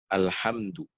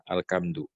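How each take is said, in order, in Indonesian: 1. Konsonan setelah 'al' adalah bunyi h. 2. Konsonan setelah 'al' adalah bunyi k. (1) "Harus menjaga huruf-hurufnya" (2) "ini nggak boleh kayak gini"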